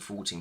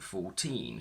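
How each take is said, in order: First: The stress is on the first syllable. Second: The stress is on the second syllable. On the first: The numbers are counted quickly one after another. "So we move the stress to the front" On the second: Each number is said as a separate word. "with the stress on teen"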